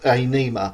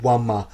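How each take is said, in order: First: The word begins with a plain vowel sound. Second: The word begins with a W sound. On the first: The speaker calls it wrong. "some of you may think it's pronounced Ainima" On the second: The speaker calls it right. "it's pronounced as a W"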